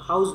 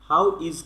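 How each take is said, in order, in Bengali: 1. এটা একটা ছোট শব্দে সংক্ষিপ্ত হয়ে যায়। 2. এটা দুটো পূর্ণ শব্দ হিসেবে বলা হয়। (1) "আমরা হাউস বলতে পারি" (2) "হাউ ইজ কে"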